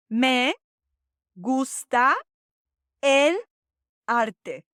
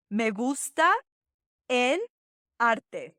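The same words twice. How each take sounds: First: "Me gusta el arte" slowly, one word at a time, for the class to repeat; slow drill. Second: "Me gusta el arte" again with shorter pauses; repeat slowly. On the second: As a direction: run "Me gusta el arte" a second time, a touch quicker. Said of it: "Let's try that again". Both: Shown as a demonstration.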